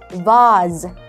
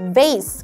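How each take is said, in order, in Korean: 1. 영국식 발음으로 말했습니다. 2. 미국식 발음으로 말했습니다.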